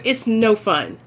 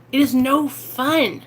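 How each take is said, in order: First: Said in the usual way. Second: Slow, weighty It is no fun with is leaned on; slow It is no fun, each word given weight; stress on is. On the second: Real, not acted. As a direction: draw out It is no fun and press on is.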